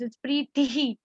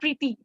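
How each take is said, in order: First: The t is said with a puff of breath. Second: The t is said without a puff of breath. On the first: The speaker calls it right. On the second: The speaker calls it wrong. "not Preeti"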